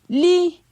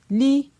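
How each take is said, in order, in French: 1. La syllabe est prononcée sur un ton haut. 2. La syllabe est prononcée sur un ton moyen. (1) "Ton haut" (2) "Ton moyen"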